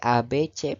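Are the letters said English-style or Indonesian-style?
Indonesian-style. The letters are said with Indonesian vowel sounds. The speaker calls it right. "A B C pelafalan bahasa Indonesia itu"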